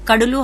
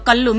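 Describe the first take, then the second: First: The middle consonant is a d sound before l. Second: The middle consonant is a doubled l sound. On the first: This is the standard language form. "ડ અને ન નો લ થાય છે" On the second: This is the Surati dialect form. "ડ અને ન નો લ થાય છે"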